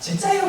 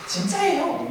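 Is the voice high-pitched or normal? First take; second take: high-pitched; normal. First: It is said in a high-pitched voice. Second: It is said in a normal voice.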